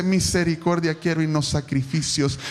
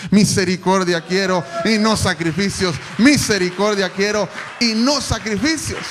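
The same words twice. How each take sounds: First: Said in the usual way. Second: Loud proclaiming. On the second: Shown as a demonstration. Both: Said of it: "repeats the verse, building".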